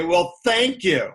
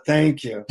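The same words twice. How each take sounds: First: Mildly snide retold thanks; a touch of mock gratitude, lightly snide. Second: Understated sincere thanks; from the heart. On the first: Annoyed traveler thanks the guru for his mantra, snide. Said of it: "in a snide way". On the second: Retold or imitated. Traveler in hot India gives thanks for air conditioning, sincere. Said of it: "You must say it from your heart".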